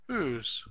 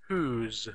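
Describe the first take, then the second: First: The words are merged into one short syllable. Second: The words are merged into one short syllable.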